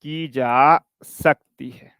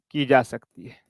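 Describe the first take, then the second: First: की जा सकती है drawn out very slowly; teacher repeating the line for note-taking; slow dictation. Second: Said in the usual way. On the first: Shown as a demonstration. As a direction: dictate the ending word by word. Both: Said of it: "लिख लो".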